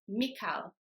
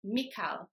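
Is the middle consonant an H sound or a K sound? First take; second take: K sound; K sound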